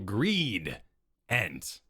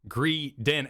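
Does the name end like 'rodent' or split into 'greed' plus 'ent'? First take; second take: greed-ent; like rodent. First: The word splits into greed plus ent. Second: The word ends like the word rodent. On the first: The speaker calls it wrong. "Don't go greed ent" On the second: The speaker calls it right. "pronounce it as greedent, as in rodent"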